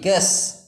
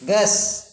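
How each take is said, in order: Both takes have the same delivery.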